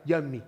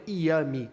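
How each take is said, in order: First: "yummy" with a firm y; crisp y on "yummy"; right yummy. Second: "yummy" said with a vowel start ee-ummy; wrong yummy. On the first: Teacher gives the right "yummy" with a y consonant. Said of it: "é ya-, yummy". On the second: Teacher shows the wrong "yummy" starting on a vowel. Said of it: "Não é yummy". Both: Shown as a demonstration.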